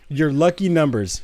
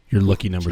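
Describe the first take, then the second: First: It is said in his normal voice. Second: It is said in a put-on deep voice.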